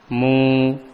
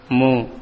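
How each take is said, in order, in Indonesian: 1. Vokalnya dibaca dua harakat. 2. Vokalnya dibaca satu harakat. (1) "itu dua harokat" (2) "Itu satu harokat"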